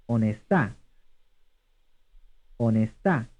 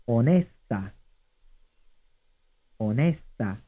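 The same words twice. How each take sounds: First: "Onestà" as o-ne-STA; stress on third syllable. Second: "Onesta" as o-NE-sta; stress on second syllable. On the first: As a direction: land on the final STA of "Onestà". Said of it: "stressed on the third syllable". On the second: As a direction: lean on the middle NE of "Onesta". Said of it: "stressed on the second syllable". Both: Shown as a demonstration.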